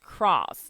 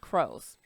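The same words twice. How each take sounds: First: The vowel is a short 'ah' sound. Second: The vowel is a long 'oh' sound. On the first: The speaker calls it right. "this word is cross" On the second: The speaker calls it wrong. "not cross"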